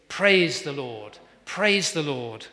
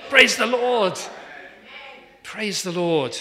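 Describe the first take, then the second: First: Very slow, weighty praise the Lord; solemn slow close. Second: Loud, high, laughing Praise the Lord; joyful exclaim. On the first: Acted. Preacher closing the psalm reading, very slow and weighty. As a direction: let each praise the Lord land slowly and heavily. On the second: Real, not acted. Preacher answering his own question, loud and laughing. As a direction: burst it out with a laugh.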